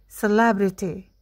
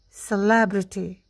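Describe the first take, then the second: The two takes are said the same way.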